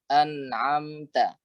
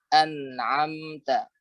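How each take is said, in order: Both takes have the same delivery.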